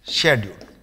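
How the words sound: It is said the British way, 'shedule'.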